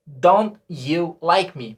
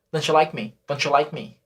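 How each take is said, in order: First: Don't you like me slow, dont and you separate; careful textbook reading; full pronunciation; slow written form. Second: Don't you like me with donchu run together; quick casual spoken English; fast native contraction. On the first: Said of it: "a gente deveria falar". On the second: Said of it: "Mas falando rápido". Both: Shown as a demonstration.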